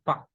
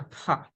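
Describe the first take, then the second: First: Pa with no puff of air after the p; unaspirated P. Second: Pa with a puff of air after the p; aspirated P. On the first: Teacher showing what to avoid, unaspirated pa. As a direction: say pa with a dry, unaspirated p. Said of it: "not as a pa". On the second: Teacher showing what to pronounce, aspirated pa. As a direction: say pa as pha. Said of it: "we have to pronounce as a". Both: Shown as a demonstration.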